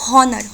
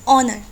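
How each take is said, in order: First: The word starts with an audible h sound. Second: The word starts with a vowel, no h. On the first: The speaker calls it wrong. "Not हॉनर" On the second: The speaker calls it right. "We read it as ऑनर"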